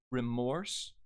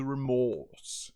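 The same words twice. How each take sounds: First: Said in the usual way. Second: REMORSE with long 'aw' and no R; British vowel. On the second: Shown as a demonstration. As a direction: drop the R in REMORSE, stretch the 'aw'. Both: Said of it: "returns into remorse".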